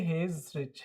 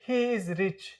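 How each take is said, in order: First: He and is are joined into one contracted word. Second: He and is are said as separate full words. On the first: The speaker calls it right. "मिला के एक साथ मिला के आप क्या pronounce करोगे" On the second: The speaker calls it wrong. "ऐसे नहीं बोलते हैं"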